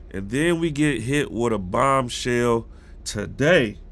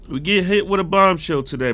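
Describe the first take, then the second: First: "And then we get hit with a bombshell today" said slowly at normal pitch; slow build-up. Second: "hit" punched higher and louder; stress on HIT. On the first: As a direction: draw out "bombshell today" slowly, holding back. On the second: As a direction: hit the word "hit" hard, raised voice. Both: Shown as a demonstration.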